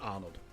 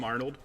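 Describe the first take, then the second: First: The name is said the Austrian way. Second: The name is said the plain English way. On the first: This is how the name is really meant to be said. "It's like the Austrian, you don't pronounce the ah" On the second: This is the easier, everyday way people say it. "everybody calls him Arnold"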